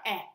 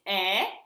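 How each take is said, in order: First: The vowel is cut short. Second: The vowel is held long. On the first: "It's a little bit shorter" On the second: "When you pronounce it long"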